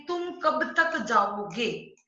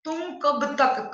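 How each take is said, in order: First: Slow, with weight on तक; stress on तक. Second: तक punched out, slow and louder; stress on तक. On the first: Teacher showing students the emphasis on तक. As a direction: lean on तक as you ask. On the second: Teacher showing students how तक takes the stress. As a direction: hit तक hard and slow. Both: Shown as a demonstration. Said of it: "ये तक शब्द है वो ज्यादा जोर दे रहा है".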